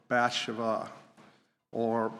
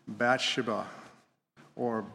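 No difference in how they are said.

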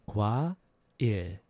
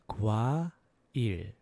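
Both takes have the same delivery.

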